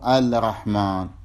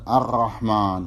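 First: The l is clearly sounded before r. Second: The l merges into the following r sound. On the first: The speaker calls it wrong. "مو الرحمن" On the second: The speaker calls it right. "بمعنى عدم إظهارها، فتقول الشمس وتقول الرحمن"

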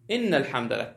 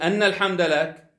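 First: The first word begins with an 'i' vowel. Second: The first word begins with an 'a' vowel. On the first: It starts a new statement affirming that praise belongs to God. "ثم تقول في جملة جديدة" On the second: It gives praise as the reason for answering the call. "كأنك تجعل التلبية إجابة إلى الدعوة، لأنك تستحق الحمد"

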